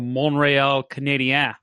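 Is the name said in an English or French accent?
French. The name is said with French pronunciation.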